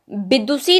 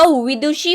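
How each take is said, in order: First: विदुषी said as bidusi, with b and s; wrong form. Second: विदुषी said slowly as vidushi, with v and sh; slow and clear, v as in वकील and sh in विदुषी; correct form. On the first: Teacher showing students the wrong b sound, bidusi for विदुषी. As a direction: give विदुषी a b start and a plain s. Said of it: "विदुषी नहीं होता". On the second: Teacher giving students the right v and sh, slow विदुषी. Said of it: "वा वकील वाली वा". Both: Shown as a demonstration.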